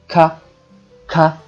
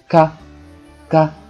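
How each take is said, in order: First: The k is released with a strong puff of air. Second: The k is released with little or no air. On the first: "这时候能感觉到气流，那么这个咔就是送气音" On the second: "这个时候感觉不到气流，那么这个咔就是不送气音"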